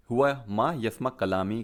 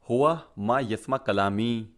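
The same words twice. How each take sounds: First: Said in the usual way. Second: हुआ मा यस्मा कलामी spelled out slowly, word by word; slow it down so learners catch each word; slow teaching demo. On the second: Shown as a demonstration. Teacher modelling the Arabic sentence for students, slow and deliberate. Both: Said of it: "इसको आप ऐसे भी बोल सकते हैं".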